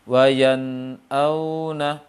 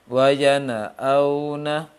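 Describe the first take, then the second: First: The n is held smoothly with no extra vowel. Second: The n bounces, adding an extra vowel after it. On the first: The speaker calls it right. "yang tepat seperti apa" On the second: The speaker calls it wrong. "yang terpantulkan"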